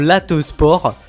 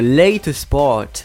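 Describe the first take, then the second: First: The first word has a short, flat French-style vowel. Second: The first word has the English 'ay' vowel sound. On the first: The speaker calls it wrong. "Je prononce mal l'anglais" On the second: The speaker calls it right. "Il y a une différence quand même"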